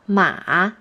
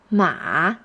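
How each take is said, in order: Both takes have the same delivery.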